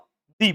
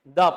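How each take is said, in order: First: The word is said with a long 'ee' vowel. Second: The word is said with a short 'uh' vowel. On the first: The next word begins with a vowel sound. "Vowel sound से start हो ... तो दी पढ़ते हैं।" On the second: The next word begins with a consonant sound. "Consonant sound से start हो तब हम T H E को क्या पढ़ते हैं? द पढ़ते हैं।"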